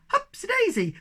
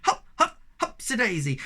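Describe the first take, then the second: First: High, gleeful cry much higher; excited cry. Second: Shouted. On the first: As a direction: whoop it as you leap. Sniff jumping onto a cloud. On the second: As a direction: yell it while bouncing. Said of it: "they shouted". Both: Acted.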